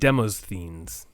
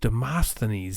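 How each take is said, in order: First: The name is said in a misread, spelling-based way. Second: The name is said in its usual accepted way. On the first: This is how the name was guessed from reading alone. The speaker calls it wrong. "I always pronounced it Demosthenes" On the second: This is how other people say the name. The speaker calls it right. "sounds so much more correct"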